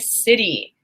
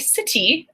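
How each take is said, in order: First: The middle T is a soft, quick tap. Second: The middle T is a sharp, full T. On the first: The speaker calls it right. "I say city" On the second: The speaker calls it wrong. "I do not say city"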